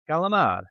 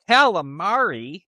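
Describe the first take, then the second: First: The final vowel is dropped. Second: The final vowel is clearly pronounced. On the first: The speaker calls it right. "it's calamar" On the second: The speaker calls it wrong. "not calamari"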